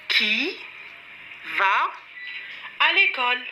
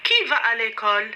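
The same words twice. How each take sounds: First: "Qui ... va ... à l'école?" with clear gaps; teacher spacing out "Qui", "va", "à l'école"; word by word. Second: Said in the usual way. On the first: Shown as a demonstration. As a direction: pause after "Qui" and after "va". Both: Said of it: "la personne qui va à l'école".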